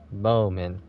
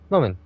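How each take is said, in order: First: The first vowel is drawn out long. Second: The first vowel is short. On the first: "with, you know, two O's" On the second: "instead of"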